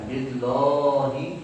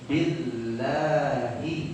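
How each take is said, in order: First: The l sound is heavy and thick. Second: The l sound is light and thin. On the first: The speaker calls it wrong. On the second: The speaker calls it right. "dibaca billahi tanpa menebalkan"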